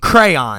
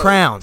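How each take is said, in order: First: The word is said with two syllables. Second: The word is said with one syllable. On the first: The speaker calls it wrong. "nobody gets a coloring book and goes" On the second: The speaker calls it right. "We need"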